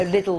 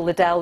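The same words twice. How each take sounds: First: Liddle said "LID-dl"; stress on first syllable. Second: Liddell said "lid-DELL"; stress on second syllable. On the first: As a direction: hit the start of Liddle. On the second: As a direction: hit the end of Liddell. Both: Shown as a demonstration. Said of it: "Stress shifting around in names".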